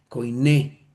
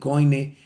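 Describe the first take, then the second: First: It is said as koiné, ending in a stressed e. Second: It is said as coine, without a stressed final e. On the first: The speaker calls it right. "la verdadera forma como lo se podría pronunciar" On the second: The speaker calls it wrong. "ni coine"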